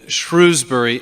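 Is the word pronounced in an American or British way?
American. The name is pronounced the American way.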